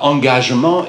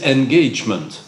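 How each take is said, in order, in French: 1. Le mot se prononce à la française. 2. Le mot se prononce à l'anglaise. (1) "ils disent non pas engagement" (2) "ils disent engagement"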